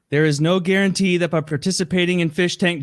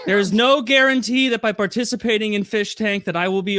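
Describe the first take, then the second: First: Said in the usual way. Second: Raised, higher reading voice; reading out louder. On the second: Retold or imitated. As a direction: read it out as if told to speak up. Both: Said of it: "Josie, louder!".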